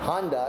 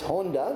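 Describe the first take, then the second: First: It is pronounced the American English way. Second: It is pronounced the Japanese way. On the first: The speaker calls it wrong. "we said them wrong" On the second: The speaker calls it right. "It's Honda"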